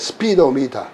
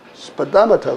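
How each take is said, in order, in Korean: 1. 비강세 모음은 원래 소리를 그대로 유지합니다. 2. 비강세 모음은 슈와로 약해집니다. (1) "근데 스피도미터 그러지 않거든요" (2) "일 번으로 읽으면 스파다마터 그래요"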